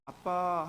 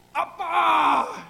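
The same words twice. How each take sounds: First: Said in the usual way. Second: Huge, drawn-out high yell; exaggerated prayer shout, stretched out; shouted call to Dad. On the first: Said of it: "하면 못 들으세요?". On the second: Shown as a demonstration. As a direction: bellow it long, as if God were hard of hearing. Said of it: "해야 들으세요?".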